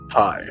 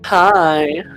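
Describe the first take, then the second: First: A deep, manly voice says the greeting. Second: A camp, flamboyant voice says the greeting. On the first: "Say it like a man" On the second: "like a zesty guy"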